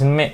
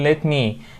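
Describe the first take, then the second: First: The words run together into one reduced form. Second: Both words are said fully and separately. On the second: "لما نقول let me"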